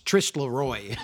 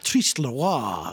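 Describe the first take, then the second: First: The name is said with an English pronunciation. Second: The name is said with a French pronunciation. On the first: "he gets corrected by Lunroe" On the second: "with like a proper French pronunciation"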